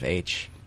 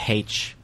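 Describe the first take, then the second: First: The letter is said without an h sound, American-style. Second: The letter is said with an h sound, British-style.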